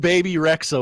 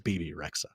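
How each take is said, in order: First: The first name sounds like 'baby'. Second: The first name sounds like 'bebe'. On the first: The speaker calls it wrong. "if you knew who [name] was" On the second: The speaker calls it right. "you would know that it's B B Rexa"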